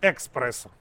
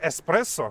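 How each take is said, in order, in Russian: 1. Слово начинается на eks, со звуком k. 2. Слово начинается на es, звука k нет. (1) "А здесь экспрессо" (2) "в Италии эспрессо"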